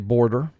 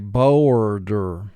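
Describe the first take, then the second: First: The vowel is pronounced in the ordinary relaxed way. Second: The vowel is stretched and pronounced in an exaggerated way. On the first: This is how the word is normally spoken. "obviously we say border" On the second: This helps match the sounds to the spelling. "for spelling we say boarder. It's a little exaggerated"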